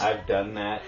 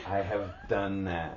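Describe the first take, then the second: First: Said in the usual way. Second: "have" spelled out and stressed, slower. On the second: Real, not acted. Insisting she has done it too, stress on "have".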